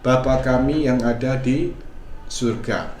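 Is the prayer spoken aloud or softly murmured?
softly murmured. It is said very softly, almost under the breath. The prayer is said inwardly, in the heart. "kita doakan dalam hati"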